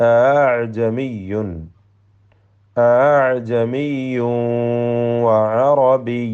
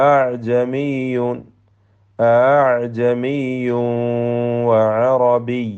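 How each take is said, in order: No difference in how they are said.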